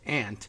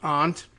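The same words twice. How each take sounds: First: It is said in an East Coast 'ant' accent. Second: It is said with a broad 'ahnt' vowel.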